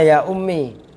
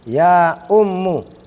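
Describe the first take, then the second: First: The word ends with an 'ee' vowel. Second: The word ends with an 'oo' vowel. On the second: "mim yang harusnya dibaca kasro dibaca dhamma menjadi ya ummu"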